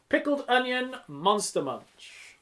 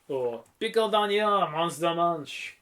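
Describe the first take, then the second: First: Said in the usual way. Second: Slow, hammed-up French accent; drawn-out French vowels and stresses. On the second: Shown as a demonstration. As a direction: turn the title into mock French. Title repeated in mock French.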